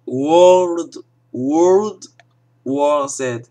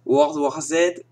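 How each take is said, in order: First: "World, World War Z" with a louder, overdone English accent, "World" repeated; louder, overdone English-accent try at "World War Z"; hammed-up English accent. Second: Said in the usual way. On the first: Shown as a demonstration. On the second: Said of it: "désolé surtout pour mon accent anglais".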